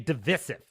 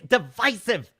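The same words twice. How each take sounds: First: The word has the newscaster-style pronunciation. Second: The word has the everyday pronunciation. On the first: It sounds snobbish and unnatural. The speaker calls it wrong. "that is how snobbish, like like uh, C N N and Fox News reporters say it" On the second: It is how normal people say it. The speaker calls it right. "That's how you say it"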